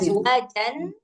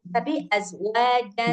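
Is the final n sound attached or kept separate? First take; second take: attached; separate. First: The final n sound is attached to the word. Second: The final n sound is kept separate. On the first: The speaker calls it wrong. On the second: The speaker calls it right.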